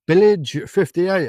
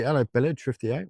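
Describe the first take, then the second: First: Loud, slow, drawn-out viewer name; mock announcer greeting. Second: Said in the usual way. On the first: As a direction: boom the name out slowly to tease. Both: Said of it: "I always do that to people".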